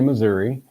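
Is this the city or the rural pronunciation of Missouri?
city. It is said the way city people say it. The speaker is from the city. "The city people will say Missouri"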